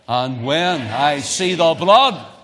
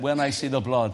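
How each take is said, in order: First: It is said louder. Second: It is said at normal volume.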